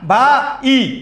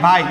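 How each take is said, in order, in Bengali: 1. দুটি স্বরধ্বনি আলাদা হয়ে দুই অক্ষর হয়। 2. দুটি স্বরধ্বনি মিলে এক অক্ষর হয়। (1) "এভাবে বলো না" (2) "এই দুইটা মিলে একটা"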